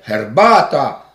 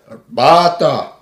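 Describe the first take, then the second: First: It begins with a voiceless, rough ch sound. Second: It begins with a voiced, soft g-like sound. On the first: The speaker calls it wrong. "Nie herbata" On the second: The speaker calls it right. "ale herbata"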